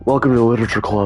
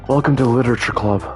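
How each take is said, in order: First: It is said in a deep, manly voice. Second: It is said in a higher, lighter voice.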